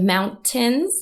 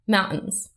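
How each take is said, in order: First: The T is pronounced clearly. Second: The T is replaced by a glottal stop. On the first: "Instead of mountains" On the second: "replaced with what linguists call a glottal stop"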